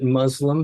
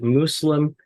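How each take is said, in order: First: The middle consonant is a Z sound. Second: The middle consonant is an S sound. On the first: It sounds close to an Arabic swear word. The speaker calls it wrong. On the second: It avoids sounding like an Arabic swear word. The speaker calls it right. "using the S sound rather than the Z sound"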